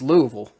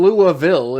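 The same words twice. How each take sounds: First: The name is squeezed into about one syllable. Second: The name is said with several full syllables. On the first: The speaker calls it right. "say it like it's like it's one syllable" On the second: The speaker calls it wrong. "It's not even Louisville"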